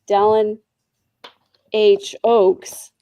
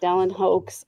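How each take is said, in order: First: The initial and surname are said as separate words. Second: The initial and surname merge into one word, 'hoax'. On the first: The speaker calls it right. "I'm sorry, Dallin H. Oaks" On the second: The speaker calls it wrong. "not Dallin Hoax. I said it wrong the first time"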